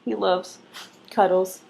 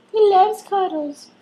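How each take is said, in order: First: Said in the usual way. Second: Much higher, slower sing-song pet voice. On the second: Real, not acted. Repeated in high pet voice.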